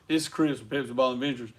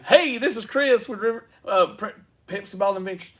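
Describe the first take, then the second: First: It is said in a flat, plain way. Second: It is said in a peppy, energetic way.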